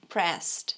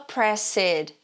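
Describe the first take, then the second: First: The ending adds no extra syllable. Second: The ending is said as an extra syllable. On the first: The speaker calls it right. "a gente fala pressed" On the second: The speaker calls it wrong. "a gente não fala pressed"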